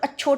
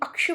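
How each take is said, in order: First: The middle sound is a plain 'ch' sound. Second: The middle sound is a clear 'ksh' cluster. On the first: The speaker calls it wrong. "सब अच्छोट बोल के चले जाते हैं, तो वो गलत है" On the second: The speaker calls it right. "यानी अक्षवाट"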